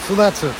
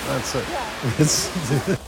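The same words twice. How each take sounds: First: Tearful "So that's it." pitched up high, voice cracking; emotional. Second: "That's it." repeated much softer, tearful, trailing away; emotional. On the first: Wrapping up his story to the audience, choked up. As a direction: push "So that's it." out through tears to close the story. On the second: Repeating his closing line to the audience, quietly tearful. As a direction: let "That's it." fade out, barely holding back tears. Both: Real, not acted. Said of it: "I'm getting emotional".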